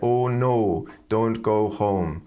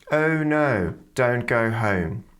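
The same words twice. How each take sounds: First: The O sound is a flat, single vowel. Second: The O sound is nasal and glides to W. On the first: It is how a German or Spanish speaker might say it. The speaker calls it wrong. "many of my German students and also Spanish speakers might say" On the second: It is the speaker's typical native British accent. The speaker calls it right. "for [name]'s accent, it's particularly nasal"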